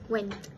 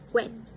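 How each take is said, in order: First: The final t sound is clearly heard. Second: The final t sound is dropped. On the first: "instead of went" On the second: "the t sound was dropped"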